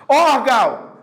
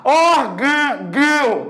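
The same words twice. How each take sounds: First: "Órgão" said "órgau", open oral vowel at the end; som aberto, sem nasal. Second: "Órgão" very slow, with a long nasal "gão"; som nasalizado. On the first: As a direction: keep the nose out of "Órgão", open ending. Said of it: "nem sente o nariz". ("Órgão" aberto, só pela boca, tipo "órgau") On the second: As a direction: draw out "Órgão", closing its ending into the nose. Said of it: "ele é nasalizado". ("Órgão" arrastado, final "gão" fechado no nariz) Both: Shown as a demonstration.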